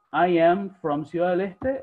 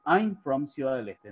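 First: Slow, with "I am" as two separate words; forma completa. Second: "I'm" contracted into one syllable; forma abreviada. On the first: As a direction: spell out "I am" unhurriedly, ending on a rise. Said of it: "Ustedes pueden decir". ("I am" completo, lento y separado) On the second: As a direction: merge "I'm" and let the line fall. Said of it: "o pueden decir". ("I'm" contraído, con final descendente) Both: Shown as a demonstration.

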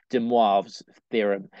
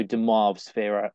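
First: "de Moivre's" said slowly, with a French "mwahv" sound; careful French pronunciation. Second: Said in the usual way. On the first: Real, not acted. Maths tutor retrying a French name, "de Moivre's" pronounced slowly and carefully as "de mwahv's". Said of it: "let me try and get my French pronunciation right". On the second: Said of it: "get my French pronunciation right".

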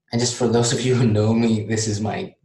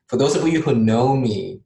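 First: Said in the usual way. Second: Light playful Canadian accent. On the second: Shown as a demonstration. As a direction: put on a Canadian accent, jokingly. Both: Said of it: "this is my Canadian accent".

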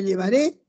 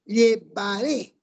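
First: Said in the usual way. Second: "Llevaré" slowly broken up, lye-va-RÉ; final-syllable stress. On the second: Shown as a demonstration. Teacher showing an aguda, slow "Llevaré" stressed on RÉ. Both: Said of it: "Palabra aguda".

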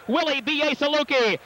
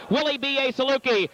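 No difference in how they are said.

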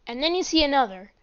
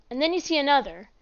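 No difference in how they are said.

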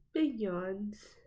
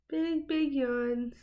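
First: Said in the usual way. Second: Slow, stretched doting coo. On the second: Real, not acted. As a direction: draw it out like cooing at a pet. Cooing over yawning dog.

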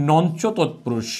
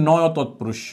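First: "নঞ্চ" said as nonch, the way many wrongly say it; common mispronunciation. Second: "নয়" said as noy, plain and clear; correct pronunciation. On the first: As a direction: say "নঞ্চ তৎপুরুষ" with a hard nonch. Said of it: "অনেকেই এটার উচ্চারণ করে". (ভুল উচ্চারণে "নঞ্চ" — নঞ্চ বলে) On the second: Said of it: "মূলত উচ্চারণটা হয়". (সঠিক উচ্চারণে "নয়" — নয় বলে) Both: Shown as a demonstration.

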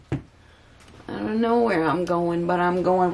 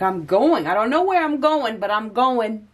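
First: Slow musing repeat of the same quote; slow dreamy repeat. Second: Pitched up high and eager; bright, rising mock exclamation; excited declaration. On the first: Acted. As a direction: savour each word like a mantra. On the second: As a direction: announce it like you're setting off on an adventure. Voicing the querent's bold decision.

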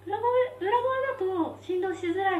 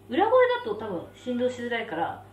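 First: High, light head voice; falsetto. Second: Said in the usual way. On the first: Shown as a demonstration. Eater showing a voice that hurts less, falsetto. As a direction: switch up into falsetto to spare the mouth. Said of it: "なんかこういう声で喋ってた方が".

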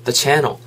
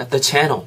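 The two takes are said the same way.

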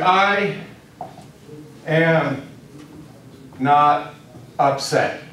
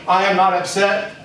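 First: Long pauses between "I", "am", "not", "upset"; word by word. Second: Said in the usual way. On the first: Shown as a demonstration. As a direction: set out "I am not upset" one word at a time. Spells out the phrase slowly.

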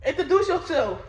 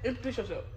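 First: Laughing. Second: Said in the usual way. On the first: Real, not acted.

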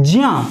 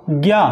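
First: ज्या said as "jya", a j sound gliding into ya; the right way: ज्या as j plus ya, not gya; ज्या clearly as jya; correct pronunciation. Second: ज्ञा said as "gya", a g sound gliding into ya; ज्ञा as gya, the wrong version; wrong pronunciation. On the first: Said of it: "इसको ज्ञा ना बोल करके ज्या बोलते हैं". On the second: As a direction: show the mistake: ज्ञा with a hard g. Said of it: "ये तो हो गया गलत". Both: Shown as a demonstration.

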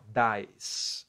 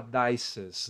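First: Dice as one long syllable, DAIS; correct English plural. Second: Dices in two syllables, DAI-ses; wrong plural. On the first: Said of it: "É assim, ó". (dice numa sílaba só, DAIS) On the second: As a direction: add an extra -es syllable to dices. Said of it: "Você não pode falar dices". (dices errado, com sílaba a mais, DAI-ses) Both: Shown as a demonstration.

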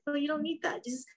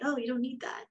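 First: Higher and softer, tender; a light, tender nudge instead of saying stop; even gentler. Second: A gentle, soft reassurance; soft and kind, like soothing a friend; kindly. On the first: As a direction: coax the thought away sweetly. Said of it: "Not say stop, but, like". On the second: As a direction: let it go softly, no scolding. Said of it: "and kindly say". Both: Shown as a demonstration.

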